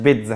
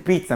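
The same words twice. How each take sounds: First: The word begins with a b sound. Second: The word begins with a p sound. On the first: The speaker calls it wrong. "مش بيتزا" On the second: The speaker calls it right. "قلت بيتزا"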